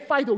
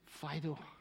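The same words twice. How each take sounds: First: It is said in a harsh, commanding tone. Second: It is said in a soft, loving tone.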